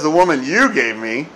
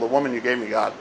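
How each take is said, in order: First: It is said with heavy, blaming emphasis. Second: It is said in a plain, factual tone.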